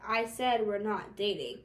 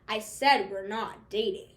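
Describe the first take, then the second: First: It is read in a plain tone. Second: It is said slowly in a loud, demanding tone.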